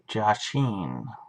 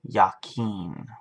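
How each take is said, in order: First: The name begins with a J sound. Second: The name begins with a Y sound. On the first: The speaker calls it wrong. "I'm saying it wrong, apparently" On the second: The speaker calls it right. "That's how it's supposed to be said"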